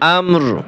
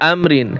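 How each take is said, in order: First: The word ends with a bare 'r' sound. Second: The word ends with a full 'rin' syllable. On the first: The reader stops at this word. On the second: The reading continues without stopping.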